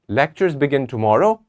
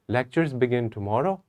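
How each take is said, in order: First: It is said as a question. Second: It is said hesitantly, with doubt and confusion. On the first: The speaker is asking whether it is true. "It's a question" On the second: The speaker is unsure whether it is true. "I'm not sure about it. I'm not, I'm having doubt and I'm having confusion"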